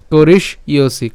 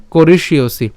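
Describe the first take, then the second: First: "করিষ্যসি" broken as korish, then iosi; split pronunciation. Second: "করিষ্যসি" run together as korish-iosi; joined pronunciation. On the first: Teacher breaks it at the sh, "করিষ্যসি" in two parts. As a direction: stop briefly after sh in "করিষ্যসি", then iosi. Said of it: "মূর্ধন্য স পর্যন্ত নিয়ে আসবো করিস". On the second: Teacher puts the word together, "করিষ্যসি" said joined. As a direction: say "করিষ্যসি" in one piece, sh sliding into iosi. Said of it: "তাহলে উচ্চারণটা কেমন হবে?". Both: Shown as a demonstration.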